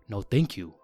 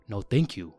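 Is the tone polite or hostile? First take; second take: polite; polite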